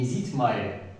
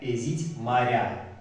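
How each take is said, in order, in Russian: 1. Некоторые гласные редуцируются или выпадают. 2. Все гласные произносятся полностью. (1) "Не эзить, Мария" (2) "мы все гласные произносим"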